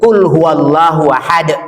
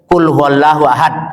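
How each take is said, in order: First: The final d ends with a short bounce. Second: The final d ends flat with no bounce. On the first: The speaker calls it right. "Yang benar itu" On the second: The speaker calls it wrong. "kalau orang baca tidak patah itu salah"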